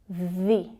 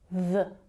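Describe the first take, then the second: First: The vowel is a long, tense ee sound. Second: The vowel is a short, relaxed schwa. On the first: It comes before a vowel sound. "The relates to a longer vowel sound" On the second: It comes before a consonant sound. "with a schwa sound"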